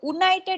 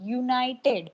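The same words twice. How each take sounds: First: The word begins with a plain 'oo' vowel. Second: The word begins with a consonant 'y' sound. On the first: The speaker calls it wrong. "યુનાઇટેડ એવું નથી બોલતા" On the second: The speaker calls it right. "એટલા માટે ય sound consonant sound બન્યો"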